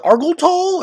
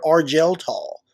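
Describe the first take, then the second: First: Argel with a hard g, "AR-gul Tall"; hard-g pronunciation. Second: Argel with a soft g, "AR-jel Tall"; soft-g pronunciation. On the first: Unsure reader trying a name with Argel as "AR-gul", hard g. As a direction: say Argel like "argle", g as in go. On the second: Unsure reader offering the other option, Argel as "AR-jel", soft g. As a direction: say Argel with a j sound, as in gel. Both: Shown as a demonstration. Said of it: "Is it Argel Tall or Argel Tall?".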